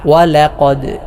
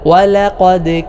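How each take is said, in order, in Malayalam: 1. അവസാനത്തെ d ഖൽഖലയോടെയാണ് ഉച്ചരിക്കുന്നത്. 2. അവസാനത്തെ d ഖൽഖലയോടെയാണ് ഉച്ചരിക്കുന്നത്.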